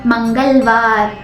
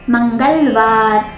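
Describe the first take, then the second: The two takes are said the same way.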